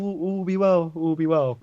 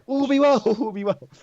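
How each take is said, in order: First: It is said quietly and half-heartedly. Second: It is said loudly and with more force.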